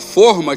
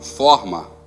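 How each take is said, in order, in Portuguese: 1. O o tônico é fechado. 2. O o tônico é aberto. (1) "tinha que ter o acento circunflexo" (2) "tem um som de agudo no O"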